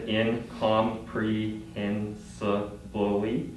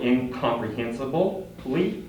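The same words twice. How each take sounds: First: Incomprehensibly said slowly, one syllable at a time; broken into syllables. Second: Said in the usual way. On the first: Shown as a demonstration. Teacher shows the class a long word in syllables, slow and clipped. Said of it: "broken down into". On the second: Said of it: "it's broken down into".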